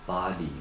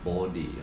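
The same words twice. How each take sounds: First: It is said with an American vowel. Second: It is said with a strong rounded O. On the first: "你们这边念body" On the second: "澳洲念body，他念O 的音很强的O"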